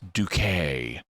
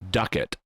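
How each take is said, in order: First: The name ends with a long 'kay' sound. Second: The name ends with a short 'it' sound. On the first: This is the corrected way of saying the name. The speaker calls it right. "oh no, it's Duquet" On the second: This is the mistaken first way of saying the name. The speaker calls it wrong. "initially, more than once, pronounces her name Duckett"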